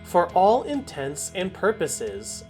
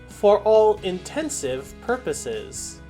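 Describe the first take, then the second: First: The middle sounds like 'intents and purposes'. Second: The middle sounds like 'intensive purposes'. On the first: The speaker calls it right. "Our fourth phrase" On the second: The speaker calls it wrong. "You will often hear people say"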